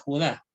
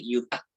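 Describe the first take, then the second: First: The name begins with a guttural sound. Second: The name begins with a y sound. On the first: This is how Spanish says the name. "en el español la J nosotros la pronunciamos como una gutural" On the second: This is how English says the name. "Judá en inglés se dice Yudá"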